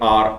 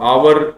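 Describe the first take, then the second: First: The word is said with one syllable, like 'ar'. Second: The word is said with two syllables, like 'ow-er'. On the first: The speaker calls it right. "लेकिन बोला जाता है ये आर account" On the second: The speaker calls it wrong. "अब आवर बोलते हैं छोरे"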